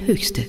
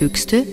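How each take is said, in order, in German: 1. Vor dem st hört man einen ch-Laut. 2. Vor dem st hört man einen k-Laut. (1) "sondern Höchste" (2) "Also nicht Höchste"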